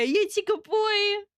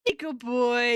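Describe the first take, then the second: First: Put-on "You're a good boy." drawn out and much higher; high pet praise. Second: Said in the usual way. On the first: Streamer cooing to a viewer as to a puppy, high and slow.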